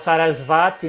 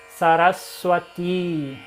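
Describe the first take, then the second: First: The consonant before the last syllable sounds like v. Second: The consonant before the last syllable sounds like w. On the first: The speaker calls it wrong. "muita gente fala Sarasvati" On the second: The speaker calls it right. "pronúncia correta"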